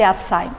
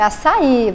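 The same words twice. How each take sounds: First: The stress falls before the last syllable. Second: The stress falls on the last syllable. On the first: The speaker calls it wrong. "não pode ser açaí" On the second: The speaker calls it right. "se tem um acento no final ... É açaí"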